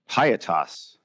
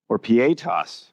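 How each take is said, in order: First: The word is pronounced the anglicized, English way. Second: The word is pronounced the more Latin way. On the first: The speaker calls it wrong. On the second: The speaker calls it right.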